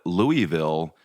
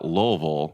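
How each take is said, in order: First: It is said the way visitors say it. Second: It is said the way locals say it. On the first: The speaker is from out of town. The speaker calls it wrong. "you're an immediate tourist and you're from out of town" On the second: The speaker is from the town. The speaker calls it right. "the locals pronounce it Louisville. So L U L"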